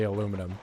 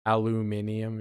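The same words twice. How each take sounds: First: Aluminum said the American way, four syllables, a-LOO-mi-num; plainly saying aluminum with the American stress on LOO; American pronunciation. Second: Aluminium said the British way, five syllables, al-yoo-MIN-ee-um; reluctantly saying Aluminium with the British stress on MIN; British pronunciation. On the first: Proudly telling chat the US word, aluminum as a-LOO-mi-num. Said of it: "In the grand old U S A, we say". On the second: Pressed by chat into the British word, says Aluminium as al-yoo-MIN-ee-um. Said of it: "You're gonna make me say the British one".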